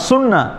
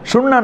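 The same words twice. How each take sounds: First: The first consonant is a clear s. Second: The first consonant sounds like sh. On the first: The speaker calls it right. "সিনের উচ্চারণ আলাদা" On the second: The speaker calls it wrong. "সুন্না না"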